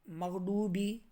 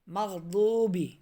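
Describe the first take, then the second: First: مغڈوبی with a hard retroflex ڈ instead of ض; wrong ڈ. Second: مغضوبی with ض from the tongue side against the upper molars, slowly; correct ض. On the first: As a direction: show the ڈو mistake. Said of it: "بعض لوگ اس کو مغڈوبی پڑھتے ہیں". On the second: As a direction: say مغضوبی with a true ض. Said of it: "زبان کی کروٹ اور اوپر کی داڑھوں کی جڑ". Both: Shown as a demonstration.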